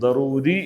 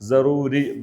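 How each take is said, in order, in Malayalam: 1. ഈ വാക്ക് d ശബ്ദത്തിലാണ് ആരംഭിക്കുന്നത്. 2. ഈ വാക്ക് s അല്ലെങ്കിൽ z ശബ്ദത്തിലാണ് ആരംഭിക്കുന്നത്. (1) "ദറൂരി എന്നാണ് അറബിയിൽ പറയാം" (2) "ഈ ഒരു സ പ്രൊണൗൺസിയേഷൻ പറയുന്ന ആൾക്കാരും ഉണ്ട്"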